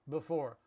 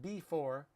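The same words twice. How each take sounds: First: The first syllable is reduced with relaxed lips. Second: Every syllable is said fully with clear lip movement. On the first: The speaker calls it right. "We all say b for" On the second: The speaker calls it wrong. "Not before"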